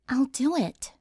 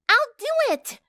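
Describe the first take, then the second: First: It is said in a soft voice. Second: It is yelled loudly.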